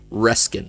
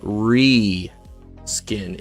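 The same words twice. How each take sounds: First: The first vowel is a short e sound. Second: The first vowel is a long ee sound. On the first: The speaker calls it wrong. "instead of reskin" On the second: The speaker calls it right. "reskin is pronounced like R E E S K I N"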